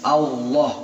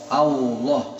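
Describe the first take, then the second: The two takes are said the same way.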